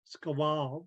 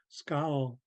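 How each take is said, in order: First: The name is split into two syllables. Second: The name is said as one syllable. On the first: The speaker calls it wrong. "I broke it up" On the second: The speaker calls it right. "it's actually Scowl"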